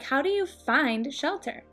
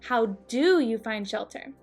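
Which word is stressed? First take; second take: find; do. First: The stress falls on the word find. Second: The stress falls on the word do. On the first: A neutral, ordinary question. "Typically, the stress would be on the verb find" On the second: The question is pressed harder because it was ignored. "the stress is on the auxiliary verb, do"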